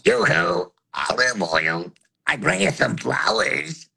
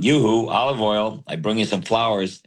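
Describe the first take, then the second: First: A high and low voice sound together. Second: It is said in a single voice.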